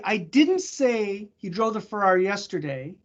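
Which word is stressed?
say. The stress falls on the word say. It was written, not spoken. "I wrote it"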